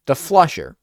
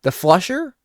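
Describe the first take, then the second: First: "The flusher." with a firm falling close; "The flusher." said flat and sure; settled answer. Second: Rising, searching question on "The flusher?"; "The flusher?" asked, not yet sure; unsure question. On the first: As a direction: land "The flusher." as the answer found. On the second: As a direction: try out "The flusher?" with a lift at the end. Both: Real, not acted. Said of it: "What the hell is it called?".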